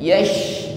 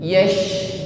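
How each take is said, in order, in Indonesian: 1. Konsonannya berupa sh yang lebar dengan hembusan udara yang menyebar. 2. Konsonannya berupa sh yang lebar dengan hembusan udara yang menyebar.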